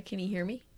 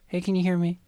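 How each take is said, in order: First: Barely trying to yell; half-hearted yell. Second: Lightly voiced orc calling out; a hint of an orc, barely raised; half-hearted orc call. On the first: Acted. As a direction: call out without raising your voice at all. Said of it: "is that how you're yelling". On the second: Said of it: "This is my orc voice".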